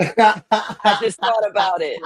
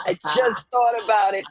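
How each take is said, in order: First: Slow words broken by laughter; laughing. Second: Said in the usual way. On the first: Real, not acted. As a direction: chuckle through the line. Laughing at own idea.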